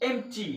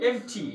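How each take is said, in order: Both takes have the same delivery.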